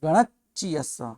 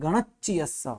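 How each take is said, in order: Both takes have the same delivery.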